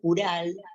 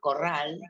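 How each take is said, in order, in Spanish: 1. Tiene una «u» y una «r» simple. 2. Tiene una «o» y una «r» múltiple.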